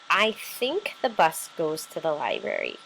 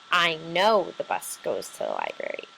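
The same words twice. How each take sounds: First: Said in the usual way. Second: "know" said with firm weight, the rest level; stress on know. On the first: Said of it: "Think and know are two similar words". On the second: Shown as a demonstration. Teacher showing a stronger word to her class, leaning on "know". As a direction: lean on "know" to sound sure. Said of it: "know is stronger since it has more conviction".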